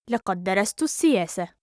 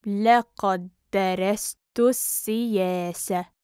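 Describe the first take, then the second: First: Quick, flowing and joined up; fast model sentence; natural speed. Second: Measured, careful teaching pace. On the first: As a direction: run the phrase together fluently. Teacher repeats phrase at speed. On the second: Teacher repeats phrase slowly joined. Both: Shown as a demonstration.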